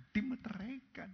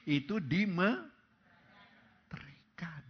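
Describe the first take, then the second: First: "dimeteraikan" whispered, higher; whispered echo. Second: Slow, stretched "itu dimeteraikan"; drawn-out emphasis. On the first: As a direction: breathe "dimeteraikan" as a secret. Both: Shown as a demonstration.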